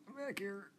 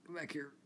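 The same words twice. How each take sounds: First: Much higher, sing-song teasing call; playful squeaky come-back-here; mock high call. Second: Said in the usual way. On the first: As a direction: call after them in a silly high voice. Calling after a passing car, repeated.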